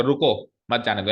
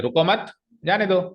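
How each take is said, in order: First: Short break after "रुको", then "मत जाने दो"; comma after रुको. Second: "रुको मत" raised, break, then "जाने दो"; group "रुको मत", pause, release "जाने दो"; comma after मत. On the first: Teacher explaining the comma, break after "रुको". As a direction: keep "मत जाने दो" in one group after "रुको". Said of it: "कॉमा रुको के बाद लगाया". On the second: Teacher moving the comma, pause after "मत". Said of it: "मत के आगे लगा दिया". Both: Shown as a demonstration.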